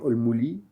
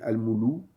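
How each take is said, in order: First: The L is followed by an i vowel. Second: The L is followed by a u vowel. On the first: "ou bien al-muli" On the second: "ou bien al-moulou"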